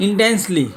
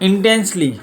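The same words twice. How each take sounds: No difference in how they are said.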